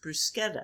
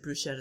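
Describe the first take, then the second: First: It is said in the Italian way. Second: It is said in the American way. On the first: The speaker calls it right. "It's pronounced bruschetta" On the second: The speaker calls it wrong. "The people in the U.S., ... Pronounce it bruschetta"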